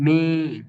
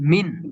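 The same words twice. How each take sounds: First: The n is hidden in a soft nasal sound. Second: The n is pronounced fully and clearly. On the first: "পুরোপুরি স্পষ্ট ভাবে বলি নাই, আমরা বলছি মিন" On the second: "মিম নুন জের মূলত সব মিন"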